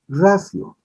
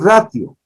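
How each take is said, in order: First: The t is sounded as an s. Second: The t is sounded as a t. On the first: The speaker calls it right. "Debemos decir ratio. La T en el latín se pronuncia como S" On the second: The speaker calls it wrong. "no se dice ratio"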